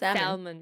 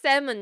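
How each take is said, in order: First: The L sound is pronounced. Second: The L sound is silent. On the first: The speaker calls it wrong. "not salmon" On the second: The speaker calls it right. "You know it's salmon"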